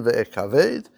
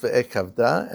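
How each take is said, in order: First: Ve'ekaved, slowly, ending in a closed -ved; slow ve'ekaved, last syllable "veid"; written form. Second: Ve'ekavda, slowly, ending in an open -da; slow ve'ekavda, last syllable "dah"; pronounced form. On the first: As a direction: read ve'ekaved as written, with no final "ah". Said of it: "It's written ve'ekaved". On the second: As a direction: read ve'ekavda with the final "ah" sounded. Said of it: "but it's pronounced ve'ekavda". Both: Shown as a demonstration.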